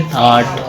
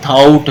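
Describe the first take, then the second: First: थाट with a plain open aw vowel, stretched a little; थाट drawn out as thawt; correct thought. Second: थाउट with a gliding ow diphthong, the wrong way; थाउट pronounced thowt; wrong thought. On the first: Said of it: "खींच के पढ़ेंगे ज़रा". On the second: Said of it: "लेकिन थाउट नहीं पढ़ेंगे". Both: Shown as a demonstration.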